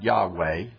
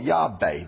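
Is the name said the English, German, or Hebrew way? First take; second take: English; German. First: The name is said with an English pronunciation. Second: The name is said with a German pronunciation. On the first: "if you had an English Hebrew teacher in seminary, you're going to pronounce it" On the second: "If you had a German Hebrew professor in seminary, you're going to call it"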